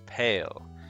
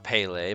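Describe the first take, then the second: First: The name is said with one syllable. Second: The name is said with two syllables. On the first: The speaker calls it right. "it is Pale" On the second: The speaker calls it wrong. "it's not Pele"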